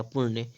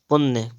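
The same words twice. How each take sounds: First: पुण्य with retroflex ṇ; tongue curled back in पुण्य; correct pronunciation. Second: पुण्य with a dental n; plain n in पुण्य; wrong pronunciation. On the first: Teacher correcting, पुण्य with retroflex ṇ. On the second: Teacher reading the error, पुण्य with dental n. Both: Shown as a demonstration. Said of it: "णा वाला बन जाएगा".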